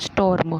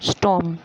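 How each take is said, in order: First: The r sound is pronounced. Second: The r sound is silent. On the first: The speaker calls it wrong. "ना कि स्टॉर्म" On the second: The speaker calls it right. "इसमें भी हम आर को silence silent रखेंगे"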